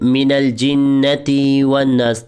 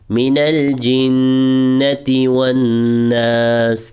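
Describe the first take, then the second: First: The ti sound in jinnati is drawn out. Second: The ti sound in jinnati is kept short. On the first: The speaker calls it wrong. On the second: The speaker calls it right.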